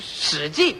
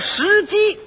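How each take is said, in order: First: The syllables carry the tones of shǐjì. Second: The syllables carry the tones of shíjī. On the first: It names the historical records. The speaker calls it right. "读音都不对 是史记" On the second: It names a stone chicken. The speaker calls it wrong. "那叫石鸡"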